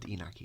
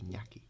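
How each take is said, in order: First: The middle consonant is a plain n sound. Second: The middle consonant is a ny sound. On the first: The speaker calls it wrong. "not Inaki" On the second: The speaker calls it right. "Iñaki, not Inaki"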